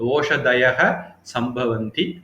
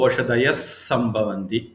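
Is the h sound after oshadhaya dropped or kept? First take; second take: kept; dropped. First: A final h sound follows oshadhaya. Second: No h sound follows oshadhaya.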